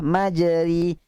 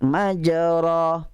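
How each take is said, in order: First: The vowel after r is a plain i. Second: The vowel after r is an open a. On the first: "Baris bawah" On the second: "Kalau baris atas"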